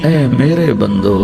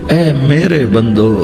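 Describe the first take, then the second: Both takes have the same delivery.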